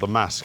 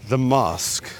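First: It is said with a northern English vowel. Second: It is said with a southern English vowel.

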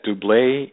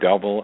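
First: It is pronounced like the French word. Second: It is pronounced like the English word. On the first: "The English pronounced it the French way" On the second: "we pronounce it the English way"

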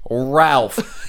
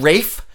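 First: The name is said with an L sound. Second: The name is said without an L sound. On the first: The speaker calls it right. "It's spelled R-A-L-P-H. Ralph" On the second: The speaker calls it wrong. "hear that, Rafe?"

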